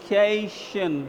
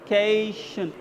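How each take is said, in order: No difference in how they are said.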